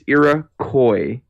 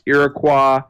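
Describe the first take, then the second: First: The final syllable sounds like koi. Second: The final syllable does not sound like koi. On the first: The speaker calls it right. "It's Iroquois, like koi fish" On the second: The speaker calls it wrong. "the Civ is not pronounced Iroquois"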